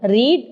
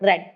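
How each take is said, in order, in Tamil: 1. இந்த உயிர் ஒலி நீண்ட 'ee' ஒலி. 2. இந்த உயிர் ஒலி குறுகிய 'e' ஒலி. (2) "வி டூ வந்து ப்ரொனவுன்ஸ் பண்ணும்போது ரெட்"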